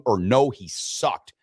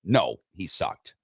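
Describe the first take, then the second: First: Slowly, no, he sucked, flat drop; slow deadpan option. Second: Slow, lower, no, he sucked; slow deadpan result. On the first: Host reading poll answers to cohost, slow and dry. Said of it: "two ways that you can answer". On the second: Host announcing poll result to cohost, slow and low. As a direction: savor the winning answer. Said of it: "Seventy thirty". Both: Shown as a demonstration.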